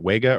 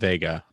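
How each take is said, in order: First: The word begins with a W sound. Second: The word begins with a V sound. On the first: "I don't know how you say it" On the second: "I've heard it said both ways"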